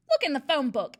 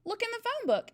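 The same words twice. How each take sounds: First: Loud, blustering headmistress read; wrong voice, Trunchbull's. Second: Put-on much higher small-boy voice; corrected, Eric's voice. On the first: The narrator wrongly reads Eric's line in Trunchbull's booming voice. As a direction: boom it as the headmistress. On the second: Eric answers the headmistress in a high small-boy voice. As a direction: pipe it up like a little boy. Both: A narrator's reading. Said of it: "Wrong person".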